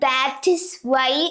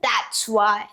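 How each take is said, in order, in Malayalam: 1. 'that is' എന്ന വാക്കുകൾ വേറെ വേറെ പറയുന്നു. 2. 'that is' എന്ന വാക്കുകൾ ഒന്നിച്ച് കണക്ട് ചെയ്ത് പറയുന്നു. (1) "നമ്മൾ that is why എന്നല്ല പറയാ" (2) "വേർഡ്സ് കണക്ട് ചെയ്ത്"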